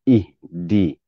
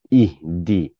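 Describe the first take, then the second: The two takes are said the same way.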